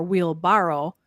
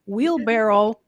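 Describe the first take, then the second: First: Wheelbarrow with a broad AH in barrow; alternative wheelbarrow. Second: Wheelbarrow with the vowel of BARREL; usual wheelbarrow. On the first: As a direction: say wheelbarrow as wheel-BAH-row. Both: Shown as a demonstration. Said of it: "we were having discussions about".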